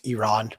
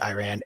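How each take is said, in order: First: It is said with the native Persian pronunciation. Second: It is said with an anglicized pronunciation. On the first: The speaker calls it right. "pronounce it the way that Iranians do" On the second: The speaker calls it wrong. "my ears cringe when you say Iran"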